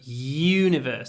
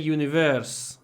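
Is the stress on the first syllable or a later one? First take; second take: first; later. First: The stress is on the first syllable. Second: The stress is not on the first syllable. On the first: The speaker calls it right. "The stress is on the U" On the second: The speaker calls it wrong. "You possibly want to say universe"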